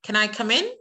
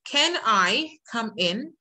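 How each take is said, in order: First: The words are linked smoothly into each other. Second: The words are said separately, without linking. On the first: The speaker calls it right. "هقول ايه؟" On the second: The speaker calls it wrong. "بدل ما اقول"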